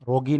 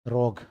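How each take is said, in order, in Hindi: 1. शब्द के अंत में एक अतिरिक्त ee ध्वनि जुड़ी होती है। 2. शब्द का अंत एक सामान्य g ध्वनि पर होता है। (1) "रोगी नहीं है" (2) "इसका प्रोनाउंस क्या होता है? रोग"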